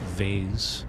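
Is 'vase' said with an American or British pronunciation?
American. The word has an American pronunciation.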